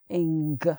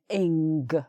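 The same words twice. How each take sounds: First: It ends with an audible hard G sound. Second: The same.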